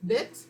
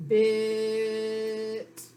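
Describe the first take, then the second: First: Said in the usual way. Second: BIT with the vowel stretched out in one long hold; blended and held. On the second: Shown as a demonstration. Teacher shows pupils how to blend sounds, blended and held. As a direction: draw out the i in BIT on a steady pitch. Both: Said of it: "Blend and hold".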